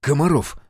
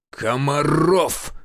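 First: Quick, ready supply of a name; eager prompt. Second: Slow, drawn-out, higher-pitched bellow; roared name. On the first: Narrator supplies the major's name to healer, eager. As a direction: chip in helpfully, pitched up. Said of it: "с готовностью подсказал я". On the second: Official summons the major through the phone, roaring. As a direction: roar the surname with rolled force. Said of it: "вновь рявкнул динамик телефона". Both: A narrator's reading.

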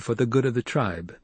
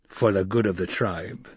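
First: Put-on slightly raised young leader's voice; Paul's measured statement. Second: Stilgar's growl. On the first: Paul challenging Stilgar with his duty, measured statement. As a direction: put it firmly to the tribesman. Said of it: "Paul said". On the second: Stilgar answering Paul's challenge, growled. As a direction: growl it back grudgingly. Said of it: "Stilgar growled". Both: A narrator's reading.

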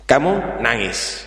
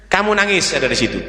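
First: Slow and soft, weight on kamu; slow quiet stress on kamu nangis; slow emphasis. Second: Rattled off fast; hurried aside to the listener; quick instruction. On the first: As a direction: spell out the key step slowly. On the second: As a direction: tell the boy fast what to do. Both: Shown as a demonstration.

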